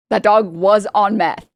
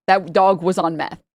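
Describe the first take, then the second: First: Slow, louder, leaning on "that dog was on meth"; emphatic repeat. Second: Said in the usual way. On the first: Shown as a demonstration. Telling a friend the vet's twist, slow and emphatic. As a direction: drive home "that dog was on meth" slowly and firmly.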